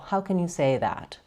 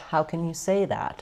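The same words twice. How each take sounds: First: Flat pitch with only a fall at the end. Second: Flat pitch, a small rise, then a fall. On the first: "Or just flat and only a fall" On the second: "flat pitch, ... And then a little rise and fall"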